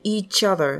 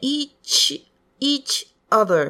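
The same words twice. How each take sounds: First: The two words are linked together. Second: The two words are said separately. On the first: The speaker calls it right. "ここ必ずリンキングをする" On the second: The speaker calls it wrong. "each other っていうんじゃなくて"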